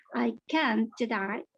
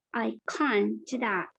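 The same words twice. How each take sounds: First: "can't" with a front a as in cat, slowly; front-vowel can. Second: "can't" with a broad ah, slowly; British negative can't. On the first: Teacher contrasting two forms, slow front-vowel "can't". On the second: Teacher contrasting two forms, slow broad "can't". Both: Shown as a demonstration.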